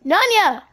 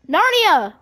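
First: "Nanya" called out with no r sound, nah-nya; mispronounced name. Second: "Narnia" called out with a clear r, nar-nee-a; corrected name. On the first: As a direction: shout "Nanya" as if the r were missing. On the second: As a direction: shout "Narnia" with the r sounded. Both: Shown as a demonstration. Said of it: "you don't even know what I was trying to say".

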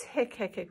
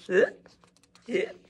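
First: Said in the usual way. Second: Hiccups popped out louder; acted hiccups. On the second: Shown as a demonstration. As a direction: make it sound like real hiccups. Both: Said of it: "'cause that's really what it's like".

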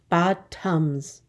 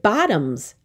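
First: "Bottoms" split in two, bot-toms; syllable by syllable. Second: Said in the usual way. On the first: Shown as a demonstration. Teacher counting two syllables, "Bottoms" said in parts. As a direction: say "Bottoms" as two separate beats. Syllable lesson, word broken up.

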